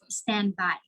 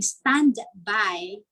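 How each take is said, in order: First: The d at the end of stand is dropped. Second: The d at the end of stand is pronounced.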